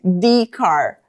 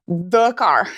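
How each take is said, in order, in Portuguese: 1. A palavra 'the' é dita como 'thee'. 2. A palavra 'the' tem uma vogal curta e fraca.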